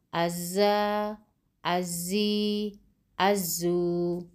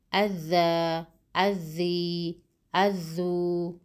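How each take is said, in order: First: از، ازی، ازو with long buzzing z; doubled ze. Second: اذ، اذی، اذو with long tongue-tip dh; doubled ذال. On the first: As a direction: hold the z in از، ازی، ازو, tongue behind teeth. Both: Shown as a demonstration. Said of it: "حرف زال و ز".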